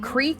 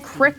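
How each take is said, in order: First: It has a long 'ee' vowel, non-southern style. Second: It has a short 'i' vowel, southern style.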